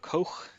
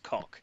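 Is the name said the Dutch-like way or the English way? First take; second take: Dutch-like; English. First: The name is said the Dutch-like way. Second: The name is said like the English word cock. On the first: "Is it is it is it like Dutch?" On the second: "it's definitely not pronounced cock"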